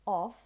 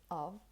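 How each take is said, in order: First: "of" with a full open vowel; stressed, unreduced "of"; strong form. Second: "of" softer, as a short "uhv"; quiet, unstressed "of"; weak form. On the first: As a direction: say "of" fully, as if alone. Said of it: "as a strong form". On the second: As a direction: reduce "of" to a schwa and v. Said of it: "or you simply say of". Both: Shown as a demonstration.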